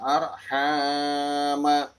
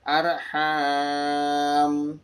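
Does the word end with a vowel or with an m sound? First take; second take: vowel; m sound. First: The word ends with a short vowel after m. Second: The word ends on m with no vowel. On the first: The reading continues without stopping. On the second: The reader stops at this word.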